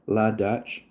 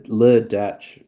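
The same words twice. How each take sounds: First: "La" said with an open "ah" vowel; "La" rhyming with "spa"; corrected article. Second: "Le" said with a short "luh" vowel; "Le" rhyming with "duh"; French-style article. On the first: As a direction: say "La" as "lah" before Dutch. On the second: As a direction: say "Le" as "luh" before Dutch. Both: Real, not acted. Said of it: "Oh, it's La Dutch".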